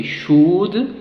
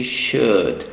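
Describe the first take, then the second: First: Should said with a long rounded oo; wrong oo vowel. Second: Should said with a short uh; right short vowel. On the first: Teacher showing the wrong vowel in should. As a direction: push the lips out on should. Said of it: "So we don't say should". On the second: Teacher modelling the correct should. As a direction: keep should short and lax. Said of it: "we say should". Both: Shown as a demonstration.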